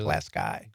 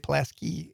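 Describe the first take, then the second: First: The name is said the way locals say it. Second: The name is said the way outsiders say it. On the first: This is how people in the area say it. The speaker calls it right. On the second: This is not how people in the area say it. The speaker calls it wrong.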